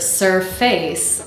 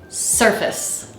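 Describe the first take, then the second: First: Both syllables sound equally strong and full. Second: The second syllable is weak and reduced. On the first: The speaker calls it wrong. "If we pronounce this word surface, then the two syllables sort of sound equally strong" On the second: The speaker calls it right. "The word should sound like da-da"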